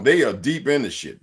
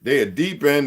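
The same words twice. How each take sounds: First: Said in the usual way. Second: "in" pushed a bit higher and held at the end; slightly raised repeat landing on "in"; stress on in. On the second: Shown as a demonstration. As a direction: lean on the word "in" to drive it home.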